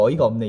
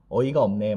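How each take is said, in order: First: It is said in a very high pitch. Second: It is said in a lower, natural pitch. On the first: The speaker calls it wrong. "완전 하이톤으로 어이가 없네 이러면은 그런 상황에 적합하지가 않죠" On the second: The speaker calls it right. "유아인이 어이가 없네 막 이렇게 하는 대사가 있죠"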